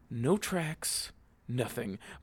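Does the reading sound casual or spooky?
spooky. It is read in a tense, eerie, dramatic tone. Something mysterious happened. "it sounded really spooky"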